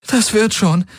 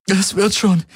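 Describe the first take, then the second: First: High, choked reassurance; holding back a sob. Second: High, stress on "wird" as she insists; holding back a sob. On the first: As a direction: fight back tears while soothing him. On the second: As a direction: press hard on "wird", choking back tears. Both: Acted. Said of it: "unterdrückte ein Schluchzen".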